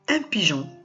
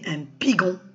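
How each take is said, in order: First: The g is a soft zh sound. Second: The g is a hard g sound. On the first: "pour nous permettre de prononcer le son je" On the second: "Parce que le G suivi d'un O, c'est go"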